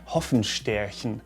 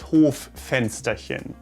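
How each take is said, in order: First: It is split as hoffen plus stärchen. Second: It is split as hof plus fensterchen. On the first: It sounds like a made-up word. The speaker calls it wrong. "at least it seems like you pronounce it this way at first glance" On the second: It means a small yard window. The speaker calls it right. "it is das Hoffensterchen"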